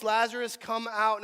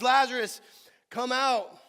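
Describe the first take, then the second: First: Reading a loud command, louder; loud call. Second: Full shout, much louder and higher; crying out loud. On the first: A narrator's reading. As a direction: call the name out firmly. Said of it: "he cried out with a loud voice". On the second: Acted. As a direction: call him out of the tomb. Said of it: "he cries out".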